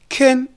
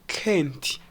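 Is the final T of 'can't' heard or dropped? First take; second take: dropped; heard. First: The final T is dropped. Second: The final T is heard. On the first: The speaker calls it right. "we say can. The T is dropped" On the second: The speaker calls it wrong. "instead of saying can't"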